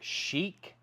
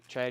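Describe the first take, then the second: First: The name begins with an 'sh' sound. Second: The name begins with a 'ch' sound. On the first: The speaker calls it right. "you should pronounce it" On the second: The speaker calls it wrong. "or as some people say"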